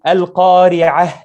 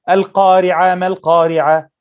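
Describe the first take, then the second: First: Al-Qari'ah slowly, air pushed out on the final ha; breathy final ha. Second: Imitating a student who drops the final ha; Al-Qari'a said with no breath on the end; mimicking weak ha. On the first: Shown as a demonstration. Teacher shows students the correct final ha. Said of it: "make sure from the beginning that the student say". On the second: Student reciting, the final ha swallowed. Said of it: "you'll find the students going to and say".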